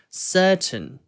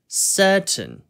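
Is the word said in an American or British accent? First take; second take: British; British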